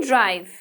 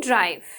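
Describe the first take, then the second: No difference in how they are said.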